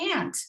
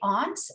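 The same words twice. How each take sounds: First: Aunt is said with a North American accent. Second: Aunt is said with a British accent. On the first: "in North America, we say" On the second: "in Britain, we'd say"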